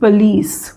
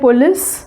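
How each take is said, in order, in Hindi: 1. यह मानक तरीके से बोला गया है। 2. यह आम भारतीय तरीके से बोला गया है। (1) "it is not police, it is police" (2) "ये हम बोलते हैं police"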